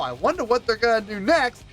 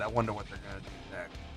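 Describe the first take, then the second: First: It sounds eager and pleasantly curious. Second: It sounds weary and annoyed. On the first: The listener is excited about what comes next. "I had positive experiences with that" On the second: The listener dreads what comes next. "I had negative experiences with that"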